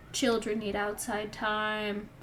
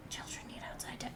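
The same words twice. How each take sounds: First: Said in the usual way. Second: Put-on Children need outside time whispered fast and breathless. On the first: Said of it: "repeated line, plain take". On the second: Shown as a demonstration. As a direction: hiss the line under your breath, fast. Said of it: "repeated line, whispered take".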